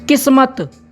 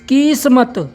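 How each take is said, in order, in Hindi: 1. पहली मात्रा छोटी है। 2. पहली मात्रा लंबी है। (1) "जबकि हमने पहले क्या उच्चारण किया था?" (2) "इसको हम दूसरी मात्रा के साथ में अगर उच्चारण करें"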